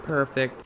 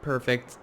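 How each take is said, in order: First: Said in the usual way. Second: Flat, mechanical 'Perfect.'; half robot voice. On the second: Real, not acted. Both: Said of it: "Why do I sound like a robot?".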